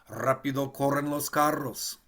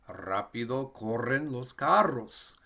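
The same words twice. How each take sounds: First: It is said at a faster pace. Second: It is said at a slower pace.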